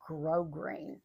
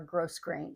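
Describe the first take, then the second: First: The first syllable is said without an s sound. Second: The first syllable is said like gross. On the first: The speaker calls it right. "It is grosgrain" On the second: The speaker calls it wrong. "or gross grain"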